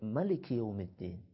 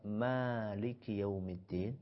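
First: The first vowel of Maliki is kept short. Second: The first vowel of Maliki is drawn out long. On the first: "Bisa juga dibaca pendek" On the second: "panjang maknya"

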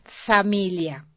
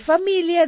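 First: The word begins with an s sound. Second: The word begins with an f sound. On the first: The speaker calls it wrong. "dije familia ... Samilia" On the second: The speaker calls it right. "En lugar de familia"

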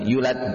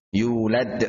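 First: The first vowel is short, without an extra beat. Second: The first vowel is held for an extra beat. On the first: The speaker calls it wrong. "bukan yulad" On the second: The speaker calls it right. "yu di sini matabi"

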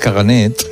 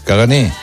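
First: The word ends with a t sound. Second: The word ends on a vowel. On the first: The speaker calls it wrong. "Dices caganet. Y no lleva T" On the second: The speaker calls it right. "lleva R, cagané, pero no se pronuncia"

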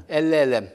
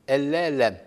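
Both takes have the same delivery.

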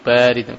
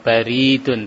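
First: The first syllable has the long vowel. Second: The second syllable has the long vowel. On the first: It means cold. The speaker calls it right. "tapi baridun" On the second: It means post or post office. The speaker calls it wrong. "bukan baridun"

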